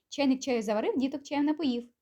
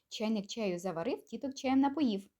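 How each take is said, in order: First: It is said at a very quick pace. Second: It is said at a quick pace. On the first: "Ще раз, тільки швидше" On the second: "Ще раз, тільки швиденько"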